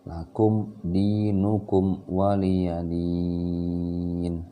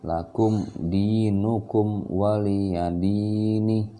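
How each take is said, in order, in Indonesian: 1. Frasa ini diakhiri dengan n tanpa vokal. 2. Frasa ini diakhiri dengan vokal 'i' pendek setelah n. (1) "Kalau mau berhenti tetap nunnya kasrahnya dihilangkan" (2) "salah ya"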